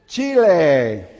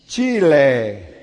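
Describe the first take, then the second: The two takes are said the same way.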